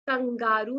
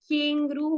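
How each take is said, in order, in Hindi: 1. पहला स्वर 'a' ध्वनि है। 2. पहला स्वर 'e' ध्वनि है। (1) "कंगारू नहीं होता है" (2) "केंगरू होता है"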